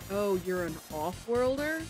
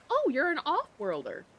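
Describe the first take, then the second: First: It is said in a contemptuous, scornful tone. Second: It is said in a neutral, friendly tone. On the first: The word is used as an insult. "if the tone shifts" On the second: The word is used without insult. "so that's not derogatory"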